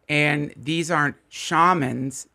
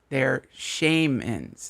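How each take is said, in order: First: "shamans" said as SHAH-mans, slow; "shamans" as SHAH-mans, the normal word; shamans, the usual way. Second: "shamans" said as SHAME-ans, very slow; shame-ans pun. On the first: Setting up the pun, the usual "shamans". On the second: Punchline, "shamans" slowly as SHAME-ans. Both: Shown as a demonstration. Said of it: "So they shame you".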